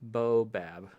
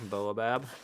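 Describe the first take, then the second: First: The first syllable is a plain 'bo' sound. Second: The first syllable is 'boa', like boa constrictor. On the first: "I don't say the A" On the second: "I would rather say bo boa, like a boa restrictor"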